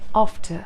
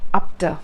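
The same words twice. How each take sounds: First: The f is a clean, smooth sound. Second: The f has a puffed, p-like sound. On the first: The speaker calls it right. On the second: The speaker calls it wrong.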